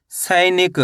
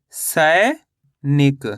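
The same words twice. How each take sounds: First: Said in the usual way. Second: सैनिक drawn out very slowly, long pause after सै; syllable by syllable. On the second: Shown as a demonstration. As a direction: split सैनिक in two: stretched rising सै, pause, then निक. (सैनिक को तोड़कर, बहुत धीरे-धीरे) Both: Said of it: "तो मिलके बन जाएगा ये".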